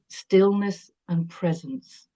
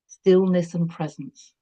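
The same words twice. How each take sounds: First: Stillness and presence drawn out even slower, Stillness held; repeated slower. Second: Stillness and presence said slowly, leaning on Stillness; slow stressed phrase. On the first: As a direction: linger on Stillness. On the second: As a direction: let each word land slowly. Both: Shown as a demonstration. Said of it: "I like that".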